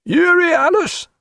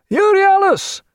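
First: High, slow rising hail; calling question. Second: Loud, very high shout; returning hail. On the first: Sailor at bow port calling other ship, high questioning. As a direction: call the ship's name questioningly. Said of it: "a voice said". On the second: Strange ship answering the challenge, loud high hail. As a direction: hail it out across the water. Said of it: "he heard the returning hail". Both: A narrator's reading.

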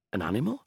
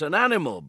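First: An animal? with a rising question tune. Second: An animal. with a firm falling tune; confirming. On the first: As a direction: ask an animal? unsure, rising. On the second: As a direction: state an animal. settled, falling. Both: Acted.

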